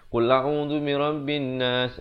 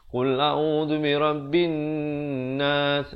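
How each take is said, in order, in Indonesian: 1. Bunyi n pendek, tanpa dengung hidung. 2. Bunyi n ditahan dengan dengung hidung. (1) "Orang baca macam tu" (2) "Di situ dengung"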